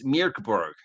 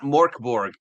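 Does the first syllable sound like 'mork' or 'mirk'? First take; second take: mirk; mork. First: The first syllable sounds like 'mirk'. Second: The first syllable sounds like 'mork'. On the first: The speaker calls it right. "it's Mirkborg" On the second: The speaker calls it wrong. "it's not Morkborg"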